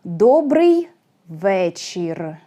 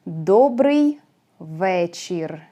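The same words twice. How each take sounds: First: Teacher model of Добрый вечір; Ukrainian pronunciation demo. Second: Добрий вечір repeated, falling at the end on вечір; second model of Добрий вечір; Ukrainian pronunciation demo. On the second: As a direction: repeat Добрий вечір once more, settling down. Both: Shown as a demonstration. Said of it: "sound E is more common for Ukrainian".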